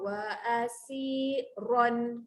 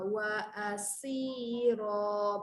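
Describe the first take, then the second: First: The word ends with a clear n sound. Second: The word ends on a vowel without n. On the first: The reader continues into the next word. "kalau sambung wa asiron, jelaskan bunyi tanwin" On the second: The reader stops after this word. "Berhenti dulu"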